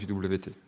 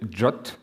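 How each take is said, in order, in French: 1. On l'épelle en trois lettres. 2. Il se dit comme un mot court. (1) "je l'ai appris J W T, donc ce sera J W T" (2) "c'est censé se prononcer J O T"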